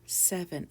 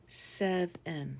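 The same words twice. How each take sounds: First: Said in the usual way. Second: "Seven" broken into two beats, sev and en; split into syllables. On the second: Shown as a demonstration. Teacher shows learners the syllables, "Seven" split in two. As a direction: say "Seven" syllable by syllable, with a gap between. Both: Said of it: "it has two syllables".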